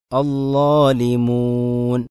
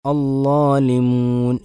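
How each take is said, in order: First: Slow അല്ലാലിമൂൻ with a clean long u, no nasal ring; correct waw. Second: അല്ലാലിമൂൻ with a ringing nasal hum on മൂൻ; nasalized waw. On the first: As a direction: say അല്ലാലിമൂൻ plainly without ghunna. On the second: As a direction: let മൂൻ ring through the nose, the wrong way. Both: Shown as a demonstration. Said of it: "എന്നല്ല".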